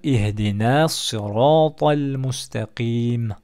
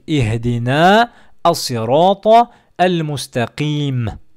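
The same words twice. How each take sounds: First: The words run together with linking between them. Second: Each word is said separately without linking.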